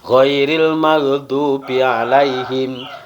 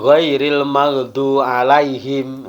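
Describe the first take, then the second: First: The b sound in maghdubi is pronounced. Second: The b sound in maghdubi is left out. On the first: The speaker calls it right. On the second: The speaker calls it wrong.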